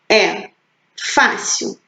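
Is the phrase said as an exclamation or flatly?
flatly. It is said flatly, without exclamative emphasis. The speaker calls it wrong. "a tia não leu corretamente"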